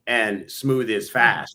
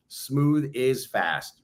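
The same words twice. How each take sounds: First: Said very slowly; slow emphasis. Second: Said very slowly, word by word; slow emphasis. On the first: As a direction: stretch out each word slowly. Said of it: "Sometimes you gotta slow down". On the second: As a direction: lay out smooth is fast slowly. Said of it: "Slow down to speed up". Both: Shown as a demonstration.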